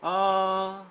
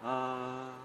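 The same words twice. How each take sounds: First: It is said with a clear, solid voice. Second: It is said with a breathy voice.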